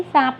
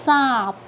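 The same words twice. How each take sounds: First: Said in the usual way. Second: सांप with a long nasal aa; सांप, nasalized aa, falling at the end; nasalized vowel. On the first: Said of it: "ये क्या लिखा है अभी?". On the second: Shown as a demonstration. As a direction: send the vowel of सांप through nose and mouth. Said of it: "तो कैसे पढ़ा आपने इसे?".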